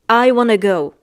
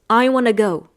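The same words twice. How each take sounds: No difference in how they are said.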